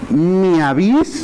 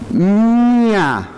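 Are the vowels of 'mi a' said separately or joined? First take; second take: separately; joined. First: The two vowels are said as separate syllables. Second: The two vowels are joined into one syllable. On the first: The speaker calls it wrong. "¿Sería así? No, ¿verdad? No se escucha bien" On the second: The speaker calls it right. "Exacto, porque esta, que es la vocal, va a ir dentro del diptongo"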